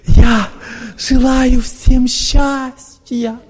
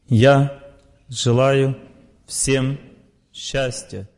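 First: The phrase is said with heightened emotion. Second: The phrase is said calmly and evenly. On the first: The wish does not reach the mind. The speaker calls it wrong. "человек эмоционально ведет себя" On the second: The wish comes from the heart. The speaker calls it right. "Он говорит сердцем"

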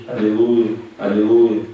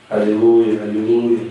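The two takes are said the same way.

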